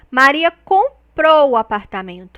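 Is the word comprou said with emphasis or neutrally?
emphasized. The word comprou gets strong extra emphasis. She bought it, as opposed to renting it. "essa marcação prosódica no comprou"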